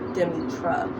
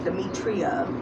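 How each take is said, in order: First: The name is said with three syllables, ending -tra. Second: The name is said with four syllables, ending -tria. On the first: The speaker calls it right. "when it's actually Demetra" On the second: The speaker calls it wrong. "I was even pronouncing my name wrong"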